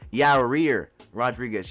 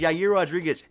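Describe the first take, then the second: First: The name is pronounced in an odd way. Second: The name is pronounced in the standard way.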